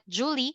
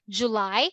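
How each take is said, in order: First: It sounds like the name Julie. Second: It sounds like the month July. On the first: The speaker calls it wrong. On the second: The speaker calls it right.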